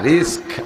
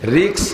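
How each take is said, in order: First: The word ends with an 'sk' sound. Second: The word ends with a 'ks' sound. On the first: The speaker calls it right. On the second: The speaker calls it wrong.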